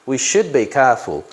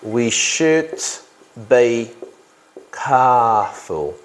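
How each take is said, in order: First: Said in the usual way. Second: "We should ... be ... careful" in separate chunks; slow dictation. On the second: Real, not acted. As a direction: dictate it slowly with a pause after each chunk. Dictates the sentence while writing.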